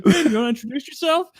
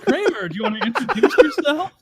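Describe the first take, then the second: First: Higher, fast put-on voice; Jerry impression. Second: Higher, louder put-on voice with a laugh; Jerry impression. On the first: Friend repeating Jerry's line faster. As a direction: rush the sly question. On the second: Friend voicing Jerry's trick to learn her name. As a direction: ask it slyly. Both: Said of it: "He's like".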